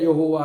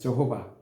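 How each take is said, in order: First: The name begins with a 'yeo' sound. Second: The name begins with a 'j' sound. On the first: This is the Korean form of the name. "우리나라는 발음이 더 안 되니까 여호와로 한 거야" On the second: This is the English form of the name. "영어 성경이다 보니까 그들이 가지고 있는 성경에는 저호바로 나와요"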